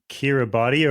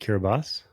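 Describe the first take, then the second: First: The final 'ti' is said with a t sound. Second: The final 'ti' is said with an s sound.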